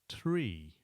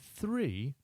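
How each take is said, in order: First: The word starts with a plain 't' sound. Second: The word starts with a 'th' sound. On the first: This is the form used on the radio in aviation. "three becomes tree" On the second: This is the everyday English form. "three becomes tree"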